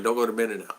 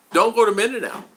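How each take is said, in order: First: Said in the usual way. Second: High, emphatic imitation of online naysayers; retold warning. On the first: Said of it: "Which is fine". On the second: Other vloggers warning people online, mimicked in a high, insistent voice. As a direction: pitch it up like people warning him off. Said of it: "so many people tell me".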